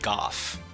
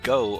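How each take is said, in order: First: The word ends with an f sound. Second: The word ends in a plain vowel. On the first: This is the only form heard in the commenter's country. The speaker calls it right. "only goff" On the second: This form is never heard in the commenter's country. The speaker calls it wrong. "I've never heard go"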